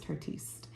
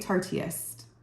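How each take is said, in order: First: The name is said as 'Tartiste'. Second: The name is said as 'Tarteist'. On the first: This is the pronunciation believed correct. The speaker calls it right. "I think it's Tartiste" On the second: This is how many other people say it. The speaker calls it wrong. "A lot of people say Tarteist. I don't know if that's right"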